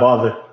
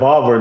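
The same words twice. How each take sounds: First: The word is said with a standard accent. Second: The word is said with a country accent. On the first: This is how it is usually said. "not bother" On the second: This is how the other person said it. "baby girl's so country. She said bother"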